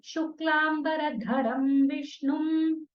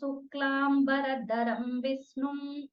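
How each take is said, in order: First: The first word begins with a sh sound. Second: The first word begins with a plain s sound. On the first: The speaker calls it right. "I mean" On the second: The speaker calls it wrong. "They can't say Sha at all"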